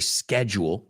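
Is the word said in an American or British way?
American. The word is said the American way. "Americans say schedule, as you just heard me say it"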